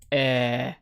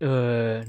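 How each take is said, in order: First: The name is said with an 'eh' vowel. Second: The name is said with an 'uh' vowel. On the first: The speaker calls it right. "That's how you pronounce it" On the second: The speaker calls it wrong. "not uh"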